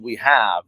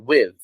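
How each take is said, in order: First: Both words are said in full. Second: The words are contracted into one syllable. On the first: The speaker calls it wrong. "you don't say we have" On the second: The speaker calls it right. "you say with"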